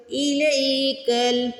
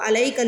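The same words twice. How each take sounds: First: الیکل begun with a clear i vowel, slowly chanted; correct ilaika. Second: الیکل spoken quickly in an ordinary voice, not chanted; wrong reading. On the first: Teacher giving the correct reading to students. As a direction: start الیکل on a short i, drawn out. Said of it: "اس کو الیکل نہیں پڑھنا، ای پڑھنا ہے". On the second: Teacher showing students the wrong way, spoken plainly. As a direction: say الیکل casually, as the mistake. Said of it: "اس کو الیکل نہیں پڑھنا". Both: Shown as a demonstration.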